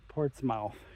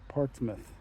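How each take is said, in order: First: The ending is a full 'mouth' sound. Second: The ending is a reduced, weak 'muth' sound. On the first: The speaker calls it wrong. "I'm pronouncing it mouth" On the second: The speaker calls it right. "it's probably pronounced Portsmouth"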